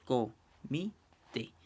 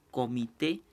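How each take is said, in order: First: Comité very slowly as co, mi, té; split into syllables. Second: Said in the usual way. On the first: Shown as a demonstration. Teacher dividing a word in three, comité syllable by syllable. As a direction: say comité in three separate syllables with long gaps. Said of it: "se separa en tres sílabas". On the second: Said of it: "por ejemplo aquí".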